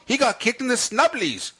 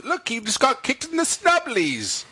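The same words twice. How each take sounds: First: High-pitched British voice on "snubblies"; British accent. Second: Put-on British accent. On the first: Retold or imitated. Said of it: "That's kind of British at the end". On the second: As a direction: do a posh British bit. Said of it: "So this is for British people".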